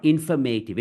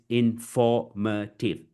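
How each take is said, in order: First: INFORMATIVE as in-fer-MAY-tiv; mispronounced. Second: INFORMATIVE slowly as in-FOR-muh-tiv; correct model. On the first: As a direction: wrongly stress MAY in "informative". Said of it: "Not informative". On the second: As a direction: separate syllables, stress FOR in "informative". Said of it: "Not informative, it's informative". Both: Shown as a demonstration.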